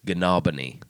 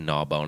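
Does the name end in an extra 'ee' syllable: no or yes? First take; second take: yes; no. First: The name ends with an extra ee syllable. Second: The name ends on the plain word bone. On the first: The speaker calls it right. "it's Gnawbony" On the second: The speaker calls it wrong. "how would you say gnaw bone?"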